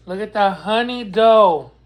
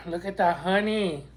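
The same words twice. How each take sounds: First: Louder, thrilled about the honey; hyped up; excited. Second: Said in the usual way. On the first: Shown as a demonstration.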